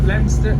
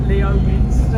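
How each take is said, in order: First: Said in the usual way. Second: Leominster said as written, lee-OH-minster; spelling pronunciation. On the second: Shown as a demonstration. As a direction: sound out every syllable of Leominster. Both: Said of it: "it's like Leominster".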